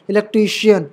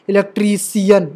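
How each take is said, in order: First: इलेक्ट्रीशियन with a clear "shiyan" ending; correct SH sound. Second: इलेक्ट्रीशियन with s, "ilektri-siyan"; wrong S sound. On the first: Teacher correcting the misreading, clear sh. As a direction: say इलेक्ट्रीशियन with sh, not s. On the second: Teacher showing the wrong reading, s for sh. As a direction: swap the sh in इलेक्ट्रीशियन for a plain s. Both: Shown as a demonstration. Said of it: "इलेक्ट्रीशियन नहीं".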